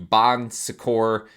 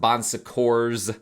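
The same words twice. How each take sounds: First: The final S is silent. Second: The final S is pronounced. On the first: "I think the S is silent" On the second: "some people pronounce it Bon Secours with an S at the end"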